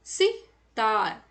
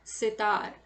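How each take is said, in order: First: sitar drawn out slowly, syllable by syllable; slow demo pronunciation. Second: Said in the usual way. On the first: Shown as a demonstration. Teacher showing children how to say it, slowly. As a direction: spell out sitar slowly for the class. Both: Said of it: "इसका उच्चारण किस प्रकार होता है?".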